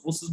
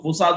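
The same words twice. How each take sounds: First: फोर्सेस with "e" in the last syllable; alternative pronunciation. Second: फोसास with long "aa" in the last syllable; variant pronunciation. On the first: Presenter showing how others say the brand, फोर्सेस ending "-ses". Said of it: "कुछ लोग फोर्सेस बोलते हैं". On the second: Presenter showing how some people say the brand, variant फोसास ending "-saas". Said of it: "कुछ लोग फोसास बोलते हैं". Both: Shown as a demonstration.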